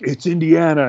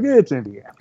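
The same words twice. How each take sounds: First: It is said in a proud, positive tone. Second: It is said in a disappointed, negative tone.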